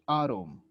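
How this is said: It is said with an American accent. "in English from United States it's atom"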